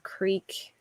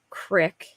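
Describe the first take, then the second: First: It is said with a standard accent. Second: It is said with a Philadelphia accent. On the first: "instead of creek" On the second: "we say like crick"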